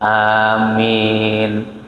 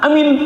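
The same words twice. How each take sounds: First: The word is drawn out with a long vowel. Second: The word is snapped out short and harsh. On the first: The speaker calls it right. "ada madnya, ada panjangnya" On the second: The speaker calls it wrong. "saking keselnya sampai aminnya dibentak"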